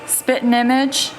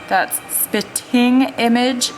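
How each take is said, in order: First: The G at the end of spitting is dropped. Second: The G at the end of spitting is pronounced. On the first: This is how the speaker naturally talks. "I'm not saying the G. That's just how I say it" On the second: This is how it would sound read aloud. "if I was reading it"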